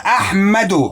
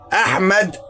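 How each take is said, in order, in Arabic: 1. تنتهي الكلمة بحركة قصيرة 'u'. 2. تنتهي الكلمة بدون حركة في آخرها. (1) "لما احط لها الضمه تبقى احمدو" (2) "احمد بس"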